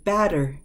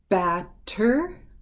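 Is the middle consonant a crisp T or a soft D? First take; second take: soft D; crisp T. First: The middle consonant is a quick, soft D. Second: The middle consonant is a crisp, released T.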